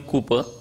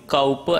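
First: The first vowel sounds like 'coo'. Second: The first vowel sounds like 'cow'. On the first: The speaker calls it wrong. "Usually it is pronounced as William Cooper" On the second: The speaker calls it right. "but it is William Cowper and not Cooper"

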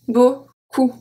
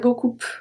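First: The final P sound is silent. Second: The final P sound is pronounced. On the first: The speaker calls it right. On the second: The speaker calls it wrong.

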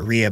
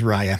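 First: The name begins with a 'ree' sound. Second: The name begins with a 'rye' sound. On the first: The speaker calls it wrong. "I was pronouncing it Rhea before" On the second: The speaker calls it right. "but it is Raya"

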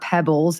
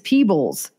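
First: The first vowel is short, as in 'pebble'. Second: The first vowel is long, as in 'peep'. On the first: The speaker calls it wrong. "It's not pebbles" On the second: The speaker calls it right. "it's peebles"

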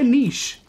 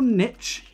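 First: The word is said in the non-American pronunciation. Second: The word is said in the American pronunciation. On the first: The speaker calls it right. "Just say niche" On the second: The speaker calls it wrong. "It's not niche"

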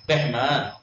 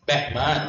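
No difference in how they are said.

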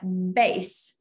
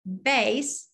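First: It is said like the word for music. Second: It is said like the word for music.

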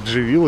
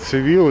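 First: The name is pronounced the Turkish way. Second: The name is pronounced in an English-like way.

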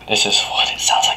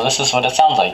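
First: The words are whispered very quietly. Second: The words are spoken at normal volume. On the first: "this is what it sounds like when I whisper" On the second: "I'm speaking at a normal tone"

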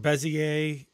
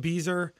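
First: The word is said with three syllables. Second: The word is said with two syllables. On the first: The speaker calls it right. "I think the correct term is bezier" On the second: The speaker calls it wrong. "I've been calling it beezer all through high school"

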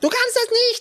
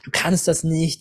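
First: It is said in a squeaky Mickey Mouse voice. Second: It is said in the speaker's normal voice.

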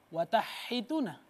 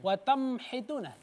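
First: The n sound is merged away before h. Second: The n sound is replaced by an m. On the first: "nggak boleh baca watahituna. Itu dimasukkan" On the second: "ditukar nun mati menjadi mim"

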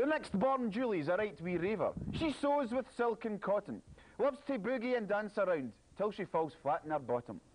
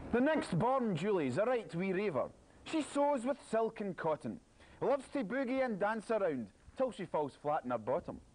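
The two takes are said the same way.

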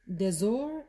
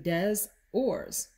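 First: Some letters are left silent, French style. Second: Every letter is pronounced, Spanish style.

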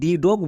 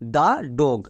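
First: 'The' is said with a long 'ee' vowel. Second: 'The' is said with a short 'uh' vowel. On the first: The speaker calls it wrong. "একে আমরা ভুল করেও দি dog বলবো না" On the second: The speaker calls it right. "এর উচ্চারণ হবে দা dog"

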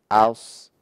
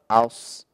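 First: The s sound is thick and emphatic. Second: The same.

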